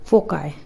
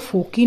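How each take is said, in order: First: The word ends with an 'eye' sound. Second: The word ends with an 'ee' sound. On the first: The speaker calls it right. "सही pronunciation है फोकाई" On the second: The speaker calls it wrong. "इसको फोकी ना pronounce करें"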